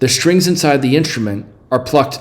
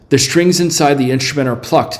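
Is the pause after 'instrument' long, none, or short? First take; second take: short; none. First: There is a short pause after 'instrument'. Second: There is no pause after 'instrument'. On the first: The speaker calls it wrong. "Is it a regular pause?" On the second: The speaker calls it right. "it's just nothing"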